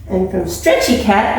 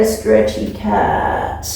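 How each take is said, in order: First: Said in the usual way. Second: Low and slow stretched out; stretchy cat voice. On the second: Pretend. Teacher shows kids a stretchy cat, low and slow. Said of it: "and stretchy cat".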